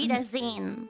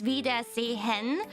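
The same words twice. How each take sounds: First: It is shorter and the H is silent. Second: Every sound is clear, including the H. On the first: "but you can just say" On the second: "if you say it very clearly"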